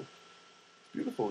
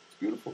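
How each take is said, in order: First: It's beautiful whispered slowly, softly. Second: Said in the usual way. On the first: Shown as a demonstration. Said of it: "repeated as a breathy aside". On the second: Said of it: "repeated, second take whispered".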